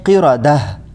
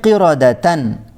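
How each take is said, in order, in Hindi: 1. यह शब्द h ध्वनि पर खत्म होता है। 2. यह शब्द tan ध्वनि पर खत्म होता है।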